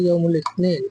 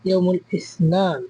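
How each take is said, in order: First: The word is said with a 't' sound. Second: The word is said with an 's' sound. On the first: This is the everyday regional form. "আঞ্চলিক আরবিতে বলা হয় ইয়মুল ইতনিন" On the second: This is the standard written form. "শুদ্ধ ভাষায় বইয়ের ভাষায় বলা হয় ইয়মুল ইসনান"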